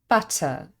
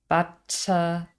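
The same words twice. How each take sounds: First: The middle consonant is short and single. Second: The middle consonant is held long. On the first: The speaker calls it right. "we just say butter. It's simply one T sound" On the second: The speaker calls it wrong. "If we made the consonant sounds longer"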